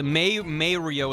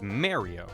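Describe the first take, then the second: First: The first vowel is the 'ay' sound. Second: The first vowel is not the 'ay' sound. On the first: It rhymes with 'paper'. The speaker calls it wrong. "May Mario is wrong and I hate it" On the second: This is the official pronunciation. The speaker calls it right. "the official pronunciation is Mario"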